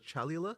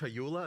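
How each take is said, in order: First: The second syllable starts with an L sound. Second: The second syllable starts with a Y sound. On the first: The speaker calls it wrong. "I always get this name wrong" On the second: The speaker calls it right.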